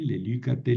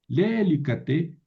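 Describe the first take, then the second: First: The stress is on the second syllable. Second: The stress is on the first syllable. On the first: The speaker calls it right. "¿Por qué moví el acento?" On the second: The speaker calls it wrong. "yo no puedo seguir acentuando aquí"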